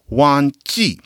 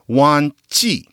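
Both takes have the same delivery.

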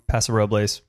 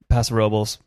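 First: The name is said with Spanish pronunciation. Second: The name is said with anglicized American pronunciation.

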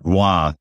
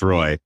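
First: The name has a French-Canadian pronunciation. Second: The name has an American English pronunciation. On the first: "Roy would be the French-Canadian pronunciation" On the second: "if your family's been living in the United States for as long as mine has, it's Roy"

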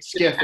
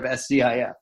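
First: It is read as the single word skif. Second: Each letter is said separately, S-C-I-F. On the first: The speaker calls it right. "in another acronym, you might actually turn it into a word" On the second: The speaker calls it wrong. "instead of"

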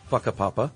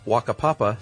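First: The word begins with an F sound. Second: The word begins with a W sound.

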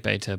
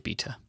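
First: It is said in a non-British accent. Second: It is said in a British accent.

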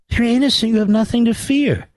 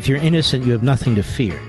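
First: It is spoken with a put-on German accent. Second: It is spoken in the speaker's ordinary accent.

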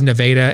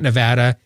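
First: It is pronounced the local Iowa way. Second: It is pronounced the usual, non-local way. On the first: This is how the town name is said locally. The speaker calls it right. "the people here in Iowa, it was Nevada" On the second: This is not how locals say the town name. The speaker calls it wrong. "and not Nevada"

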